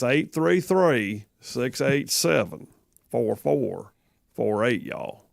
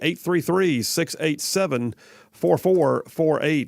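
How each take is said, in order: First: The number is said slowly with a twang. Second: The number is said fast.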